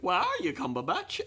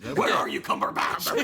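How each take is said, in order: First: It is said in a put-on British accent. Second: It is said in a deep, gravelly growl. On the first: "Michael Caine would be good"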